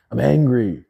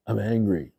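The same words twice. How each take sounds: First: Louder, heated declaration; angry. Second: Said in the usual way. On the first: Real, not acted. Streamer admits anger to chat, loud and heated. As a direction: own it, a real flash of anger.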